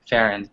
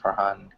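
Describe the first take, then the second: First: No h sound is heard mid-name. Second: An h sound is heard mid-name. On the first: The speaker calls it wrong. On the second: The speaker calls it right.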